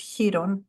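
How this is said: The name is said with a Greek pronunciation. "It's Chiron in Greek"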